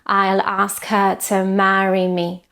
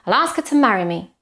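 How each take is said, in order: First: It has a Spanish-style, even syllable rhythm. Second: It has English rhythm, stressing ask and ma.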